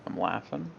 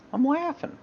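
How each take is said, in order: First: Said in the usual way. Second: Sudden very high-pitched silly voice; squeaky high voice. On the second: Shown as a demonstration. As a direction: jump way up into a squeak.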